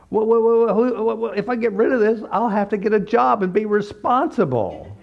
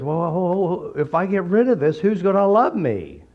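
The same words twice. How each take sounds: First: Much higher and louder hammed-up whine, faster; mock client pleading not to give up her illness; whinier client. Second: Higher hesitant whine, stalling; imitating a client who clings to her illness; whiny client. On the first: Client panics to the therapist about needing a job, exaggerated whine. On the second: Client hesitates to the therapist, mock whiny voice.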